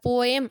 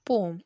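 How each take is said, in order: First: The word is said with two syllables. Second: The word is said with one syllable. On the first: The speaker calls it wrong. "அது போயம் அப்படி கிடையாது" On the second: The speaker calls it right. "போம் அப்படின்னு தான் pronounce பண்ணும்"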